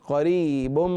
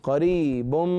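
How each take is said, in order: The two takes are said the same way.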